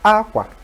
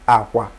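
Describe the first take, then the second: First: It carries the tone pattern meaning clothes. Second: It carries the tone pattern meaning bed. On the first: The word means clothes. "that's clothes" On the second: The word means bed.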